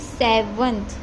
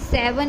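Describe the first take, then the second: First: The word ends with a final 'th' sound. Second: The word ends without a final 'th' sound. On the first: The speaker calls it right. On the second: The speaker calls it wrong. "सेवन नहीं"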